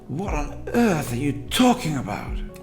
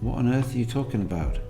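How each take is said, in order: First: It is said with strong stress and pitch movement. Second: It is said fairly flatly, with slight feeling. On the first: "much more invested" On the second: "fairly flat. There's a bit of emotion being invested in that"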